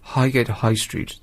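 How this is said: It sounds posh, with the H sounds pronounced.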